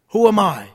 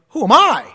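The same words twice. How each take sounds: First: The word 'I' carries no special stress. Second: The word 'I' carries strong stress.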